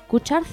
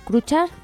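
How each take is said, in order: Both takes have the same delivery.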